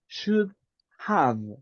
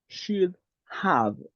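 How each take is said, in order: First: The two words are said separately with a pause. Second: The same.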